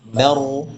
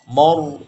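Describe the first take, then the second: First: The m-vowel is light and the r heavy. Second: Both the m-vowel and the r sound heavy. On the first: The speaker calls it right. "Kalau ma itu tipis, ma yang tebal ah rohnya" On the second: The speaker calls it wrong. "maju kena itu ketika terbaca ro yang tebal dibaca mo"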